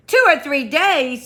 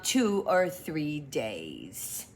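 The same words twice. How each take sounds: First: Higher and louder echo in dismay. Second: Said in the usual way. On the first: Acted. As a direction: repeat it aghast. Pooh's take.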